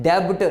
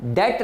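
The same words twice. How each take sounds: First: डेब्ट with the b sounded out; wrong pronunciation. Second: डेट with no b sound; डेट, the b left silent. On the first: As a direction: say डेब्ट as learners misread it, b audible. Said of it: "नहीं जी". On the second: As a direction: say debt as डेट, straight from vowel to t. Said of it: "बी की आवाज़ silent हो जाती है". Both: Shown as a demonstration.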